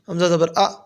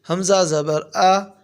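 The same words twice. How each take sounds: First: The final vowel is cut off with a jerk. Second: The final vowel is short and smoothly even. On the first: The speaker calls it wrong. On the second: The speaker calls it right.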